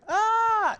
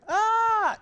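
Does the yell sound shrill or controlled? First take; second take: shrill; shrill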